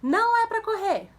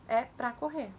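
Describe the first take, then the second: First: Put-on high, loud warning to a child; parent's shouted command. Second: Said in the usual way. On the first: Shown as a demonstration. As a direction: call out sharply to stop a running child. (bronca gritada, aguda e alta) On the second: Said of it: "Tira o não que ela não entendeu".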